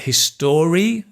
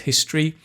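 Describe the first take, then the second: First: The stress falls on an unexpected syllable. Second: The stress falls on the expected syllable. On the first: The speaker calls it wrong. "word stress is not always correct" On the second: The speaker calls it right. "instead of"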